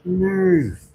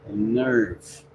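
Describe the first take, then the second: First: "Nerve" raised and falling, mock outrage; indignant nerve. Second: "Nerve" breathed out in a whisper. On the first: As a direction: snap "Nerve" as the offended hand, a touch louder. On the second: Retold or imitated. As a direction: hiss "Nerve" as the hurt hand, under the breath. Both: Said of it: "my hand is mad at me".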